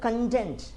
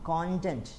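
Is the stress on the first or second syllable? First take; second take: second; first. First: The stress is on the second syllable. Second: The stress is on the first syllable. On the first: It means satisfied or happy. "രണ്ടാമത്തെ syllable stress ചെയ്യുമ്പോൾ അത് verb ഫോമായി മാറും" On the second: It is a noun meaning the contents of a book. "അതിൻ്റെ ആദ്യ syllable stress ചെയ്യുമ്പോൾ അത് noun ഫോമാണ്"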